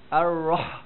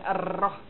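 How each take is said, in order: First: The r is said thick and heavy. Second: The r is said thin and light. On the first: The speaker calls it right. "Itu baru tebal" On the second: The speaker calls it wrong. "bukan ar-rah"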